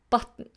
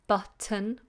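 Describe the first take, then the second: First: The T is released out the sides. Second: The T is released as a full stop. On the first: "what we call a lateral plosive" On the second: "you can either say t"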